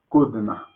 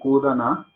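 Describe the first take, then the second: First: The d and n run together with no vowel. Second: A full a vowel separates the d and n. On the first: The speaker calls it right. "Por eso acá decimos kudna" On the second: The speaker calls it wrong. "No, no kudana"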